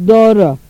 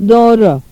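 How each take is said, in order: The two takes are said the same way.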